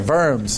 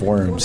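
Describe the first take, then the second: First: The word begins with a v sound. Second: The word begins with a w sound. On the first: The speaker calls it right. "we've got to pronounce it in the German" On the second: The speaker calls it wrong. "not the diet of worms"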